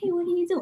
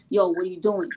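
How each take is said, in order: First: It sounds gentle and friendly. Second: It sounds harsh and confrontational.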